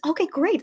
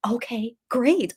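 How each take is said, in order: First: Higher, flustered okay great; high squeak. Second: Slow, stunned okay great. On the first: Daughter retelling her flustered reply, higher. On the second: Daughter retelling her stunned reply, slow. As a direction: drag it out, dazed. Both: Retold or imitated. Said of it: "And I was like".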